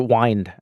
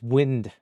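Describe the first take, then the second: First: It is said as if read from spelling. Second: It is said the usual, everyday way.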